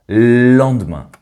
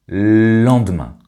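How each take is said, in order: The two takes are said the same way.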